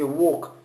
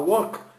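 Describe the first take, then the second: First: The vowel is a deep, open o. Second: The vowel is short, like in 'wok'. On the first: The speaker calls it right. "c'est walk. C'est un O grave" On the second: The speaker calls it wrong. "Ça ressemble un peu au walk des restaurants chinois ou japonais. C'est pas walk"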